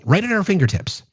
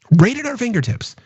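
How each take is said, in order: First: Said in the usual way. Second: "fingertips" lifted higher on the repeat; emphatic repeat. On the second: Shown as a demonstration. Repeating to chat, higher and insistent. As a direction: hammer the phrase home, pitch rising.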